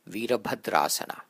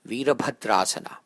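Both takes have the same delivery.

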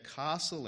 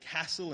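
First: Castle is said in an Adelaide accent. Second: Castle is said in a Victorian accent. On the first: This is how a local Adelaide speaker says it. "instead of castle" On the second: This is how a Victorian says it. "she used to say castle"

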